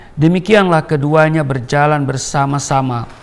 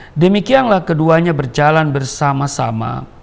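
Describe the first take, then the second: The two takes are said the same way.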